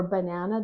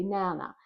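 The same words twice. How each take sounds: First: Said in the usual way. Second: "nana" said for "banana", first syllable left off; child's "nana", two syllables only; dropped first syllable. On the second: Shown as a demonstration. Speech therapist demoing a child's "nana" with the syllable dropped. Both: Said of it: "they say nana".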